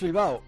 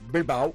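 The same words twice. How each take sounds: First: It is said with a native Spanish accent. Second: It is said with a British English accent.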